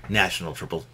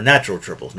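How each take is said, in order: First: National said as nash-un-al, the wrong word; National, the mistaken version. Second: Natural said clearly as nat-chur-al; natural, not national; correct word. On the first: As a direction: say National as the slip. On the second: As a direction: stress NATural, say natural fully. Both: Shown as a demonstration. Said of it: "not national triples".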